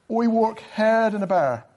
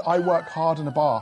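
First: Put-on broad Dublin accent with HARD as "haird". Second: Said in the usual way. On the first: Shown as a demonstration. Guest trying a Dub line for the hosts, in a put-on Dublin accent. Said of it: "gonna try a Dublin accent". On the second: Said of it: "So I said".

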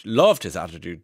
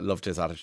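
First: "loved" punched louder with a big pitch swell; stress on LOVED. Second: Said in the usual way. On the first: Real, not acted. Radio host praising a guest to listeners, heavy stress on "loved". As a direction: lean hard on the word "loved".

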